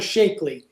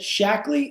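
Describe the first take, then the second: First: The first syllable sounds like 'shake'. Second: The first syllable sounds like 'shack'. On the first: The speaker calls it wrong. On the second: The speaker calls it right.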